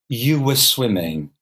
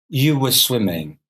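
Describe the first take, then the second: No difference in how they are said.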